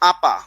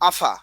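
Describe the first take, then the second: First: The middle consonant is a plain p. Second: The middle consonant is a breathy ph. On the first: "অনেকে আমরা বলি আপা" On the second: "অনেকে কি করে আপাকে কি ডাকে"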